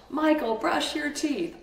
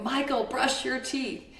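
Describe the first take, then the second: First: Higher, slow and louder angry order; mother losing her temper at son; louder yell. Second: Put-on raised pitch, stern call to a child; a mother ordering her son, retold; mock yell at son. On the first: Retold or imitated. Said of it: "I kept getting louder and louder". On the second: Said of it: "I'm yelling at him".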